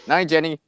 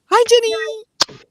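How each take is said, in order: First: Said in the usual way. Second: Very high, slow sing-song hi; drawn-out squeaky high greeting. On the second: Pretend. Greeting Jenny in funny voice.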